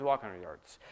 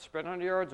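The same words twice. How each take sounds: First: Walk dropped much lower; walking pace. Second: Sprint said at a normal pitch; sprinting pace. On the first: Pastor repeating the walk line, dropped low. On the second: Pastor repeating the sprint line at normal pitch. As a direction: keep sprint up at a normal level. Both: Shown as a demonstration.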